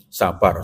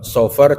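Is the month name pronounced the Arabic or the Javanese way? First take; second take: Javanese; Arabic. First: It has a p sound and an a vowel. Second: It has an f sound and an o-like vowel. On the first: "Lidah Jawa, Pak" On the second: "Sofar jadi sapar"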